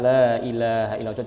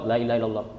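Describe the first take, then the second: First: The phrase is said slowly. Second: The phrase is said quickly. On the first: "pelan-pelan kita baca"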